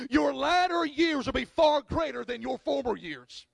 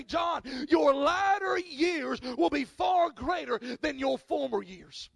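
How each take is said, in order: First: Said in the usual way. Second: Slow, emphatic pronouncement, called out loud; voice of God. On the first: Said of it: "it read on the sign". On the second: Retold or imitated. Pastor recalling God's words in the car, slow and solemn. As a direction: proclaim it slowly like a promise from above. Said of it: "I felt in my spirit the Lord say".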